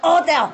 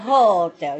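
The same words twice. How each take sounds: First: The word begins with no h sound. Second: The word begins with an audible h sound. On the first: The speaker calls it right. "You cut the ha away. You say hotel!" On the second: The speaker calls it wrong. "You don't say hotel"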